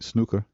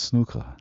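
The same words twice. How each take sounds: First: The final R is hard, American-style. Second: The final R is soft, not American-style. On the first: The speaker calls it wrong. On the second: The speaker calls it right.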